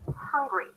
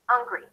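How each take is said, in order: First: It starts with a clearly breathed h sound. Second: The h sound at the start is dropped. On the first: The speaker calls it right. "Hear the difference?" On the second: The speaker calls it wrong. "If I reduce the H in the word hungry, it's going to sound like this"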